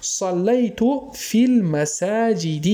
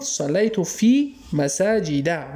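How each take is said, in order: First: المساجد drawn out slowly, ending in a clear "-i"; kasra ending. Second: مساجد drawn out slowly, ending in a clear "-a"; fatha ending. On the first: Teacher showing students the kasra after alif-lam, المساجد ending in "-i". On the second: Teacher recalling the earlier example without alif-lam, مساجد ending in "-a". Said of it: "به خاطری که الف لام نداره". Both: Shown as a demonstration.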